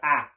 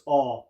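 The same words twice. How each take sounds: First: The vowel is sharp and bright. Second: The vowel is broad and open. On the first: "what you're going to hear is a lot sharper sound" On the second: "So instead of this ah"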